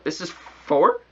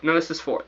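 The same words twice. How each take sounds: First: "This is four?" asked back, rising on "four"; doubting question. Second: "this is four" as a flat statement, falling at the end; sure statement. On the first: Doubting his own homework count, a rising question. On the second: Checking the homework count, a falling statement. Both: Real, not acted.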